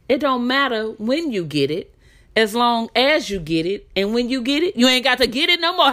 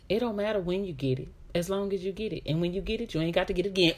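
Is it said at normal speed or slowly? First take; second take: slowly; normal speed. First: It is said slowly. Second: It is said at normal speed.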